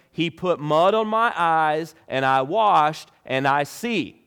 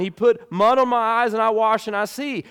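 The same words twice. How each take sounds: First: Said in the usual way. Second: Higher and louder, exasperated telling; exasperated, tired of repeating himself; frustrated. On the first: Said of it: "he said to them". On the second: Retold or imitated. Healed blind man to Pharisees, exasperated repeating. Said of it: "you can kinda sense frustration".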